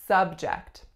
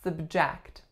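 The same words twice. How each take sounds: First: The stress is on the first syllable. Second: The stress is on the second syllable. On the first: It is a noun meaning topic. "As a noun, we would say subject" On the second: It is a verb meaning to expose to something. "This is acting as a verb because our second syllable is the strongest"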